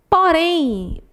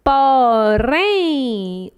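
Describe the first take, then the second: First: Said in the usual way. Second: "porém" drawn out, leaning on RÉM; stress on last syllable. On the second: Shown as a demonstration. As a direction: stretch "porém" syllable by syllable, last one strongest. ("porém" alongado, com a última sílaba mais forte) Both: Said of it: "última sílaba mais forte".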